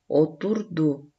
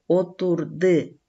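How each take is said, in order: First: The final syllable has the vowel у. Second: The final syllable has the vowel ы. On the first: The speaker calls it right. "У. ... отурду болду" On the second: The speaker calls it wrong. "отурды эмес"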